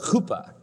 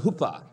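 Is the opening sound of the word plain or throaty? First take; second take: throaty; plain. First: The first sound is a throaty, rasping h. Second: The first sound is a plain, light h. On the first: The speaker calls it right. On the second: The speaker calls it wrong.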